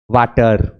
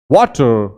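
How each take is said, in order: First: वाटर with a long flat aa, waa-ter; long a mistake. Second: वाटर with rounded lips, wo-ter; rounded vowel. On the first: Teacher imitates students' usual wrong vowel. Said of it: "आमतौर पर इसको लंबा कर देते हैं". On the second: Teacher models the right vowel for class. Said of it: "round हो जाएगा". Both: Shown as a demonstration.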